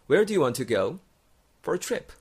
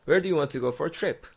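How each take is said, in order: First: It is said at a normal, unhurried pace. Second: It is said fast with the words linked.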